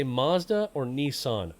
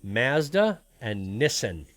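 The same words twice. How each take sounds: First: "Mazda" with ah, "Nissan" as NEE-sahn, slow; usual American pronunciation. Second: Slow "Mazda" with short a, "Nissan" as NISS-an; Canadian pronunciation. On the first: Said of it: "They don't say". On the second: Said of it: "I'm gonna strike one with you here". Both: Shown as a demonstration.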